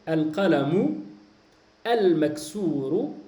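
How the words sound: There is a pause between the two words. "si tu as décidé de t'arrêter entre les deux mots"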